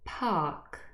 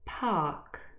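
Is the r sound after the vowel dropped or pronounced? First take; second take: dropped; dropped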